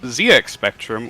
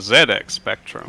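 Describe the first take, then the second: First: The name is said in an American accent. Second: The name is said in a British accent.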